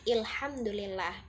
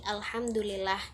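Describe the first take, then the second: First: The word begins with the sound il. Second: The word begins with the sound al. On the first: It is the Egyptian colloquial form. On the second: It is the Standard Arabic form.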